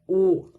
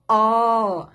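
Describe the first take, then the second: First: The vowel is said closed. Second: The vowel is said open. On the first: "o som delas é fechado" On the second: "o som delas é aberto"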